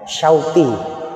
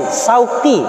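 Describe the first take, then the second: First: It starts with sh and has a deep q. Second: It starts with plain s and has a deep q. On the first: It means longing. The speaker calls it right. "Kalau orang tepat memanggil nama saya Syauqi" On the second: It means thorns. The speaker calls it wrong. "benar qaf tapi depannya sin"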